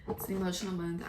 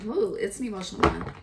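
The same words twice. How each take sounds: First: Said in the usual way. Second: Louder, higher, quicker emotional ooh; emotional burst. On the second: Real, not acted. Reader moved by the cards, bursts out emotionally. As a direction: let the feeling spill out on the ooh. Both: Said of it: "I'm getting emotional".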